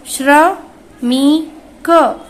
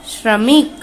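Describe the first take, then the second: First: श्रमिक stretched very slowly, श्र clearly sounded; slow model word for the class; drawn-out pronunciation. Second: Said in the usual way. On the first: Shown as a demonstration. (श्रमिक को धीरे-धीरे खींचकर) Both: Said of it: "आप सभी मेरे साथ में इसे पढ़ते जाइए".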